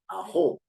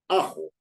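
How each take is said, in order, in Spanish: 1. La tónica está en la última sílaba. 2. La tónica está en la primera sílaba. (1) "No en jo. Uno no dice ajo" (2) "sino dice ajo ... En la A"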